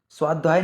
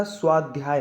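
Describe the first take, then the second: First: स्वाध्याय without its y, "swaa-dhaay"; wrong pronunciation. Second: स्वाध्याय with "dhy" clearly sounded; correct pronunciation. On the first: Teacher shows students the error, mispronounced. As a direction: drop the y in स्वाध्याय. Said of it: "स्वाध्याय नहीं होता". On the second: Teacher corrects it for students, careful pronunciation. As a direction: say स्वाध्याय as "swaad-dhyaay". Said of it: "स्वाध्याय होता है". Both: Shown as a demonstration.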